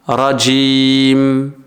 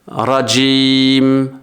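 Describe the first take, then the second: The two takes are said the same way.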